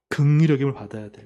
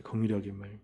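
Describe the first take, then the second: First: 긍휼히 pressed firmly, falling; 긍휼히 stressed with a falling tune. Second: 긍휼히 as a quiet low echo; soft echo. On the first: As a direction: lean hard on 긍휼히. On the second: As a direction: repeat 긍휼히 much lower and softer. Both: Shown as a demonstration.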